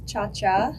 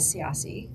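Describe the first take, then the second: First: The surname is said with Italian pronunciation. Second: The surname is said with non-Italian pronunciation. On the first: The speaker calls it right. "technically, yes, it's cha cha in Italian" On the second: The speaker calls it wrong. "I was misled my almost entire life that we thought it was siasi"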